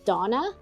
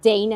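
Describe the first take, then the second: First: The name is said the non-American way. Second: The name is said the American way. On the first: "how I would say it" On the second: "that's how it's supposed to be said"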